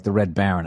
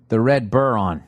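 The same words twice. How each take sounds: First: Baron said properly as BARE-on; corrected name. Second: Buron read as BUR-on, a stumbling misreading; misread name. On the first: Host catching the joke in the email, saying it properly. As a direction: get Baron right this time, lower. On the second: Host reading a listener's email, stumbling on the name. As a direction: read Buron like an unknown word. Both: Shown as a demonstration. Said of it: "Oh, like the Red Baron".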